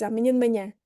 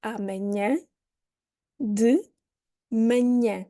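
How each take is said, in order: First: Amanhã de manhã run together fast, only the last syllable of manhã clear; natural connected speech. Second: Amanhã de manhã said word by word, each syllable separate; robotic syllable by syllable. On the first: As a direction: blend amanhã de manhã into one quick chunk. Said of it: "what you actually hear is". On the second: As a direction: spell out amanhã de manhã slowly, every syllable clear. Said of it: "very robotically". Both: Shown as a demonstration.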